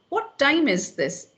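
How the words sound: It is asked in an annoyed, displeased tone.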